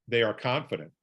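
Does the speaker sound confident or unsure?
confident. It is said in a strong, self-assured way. The speaker calls it right. "Or how about this?"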